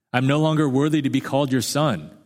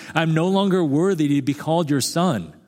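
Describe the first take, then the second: The two takes are said the same way.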